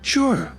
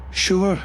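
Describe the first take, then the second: First: Brighter, higher take of Sure with a smile; clearer with a smile. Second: Muttered flatly. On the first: Acted. Fiona reassures Jacek, clear and smiling. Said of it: "repeated in a clearer voice". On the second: A narrator's reading. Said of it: "I muttered flatly".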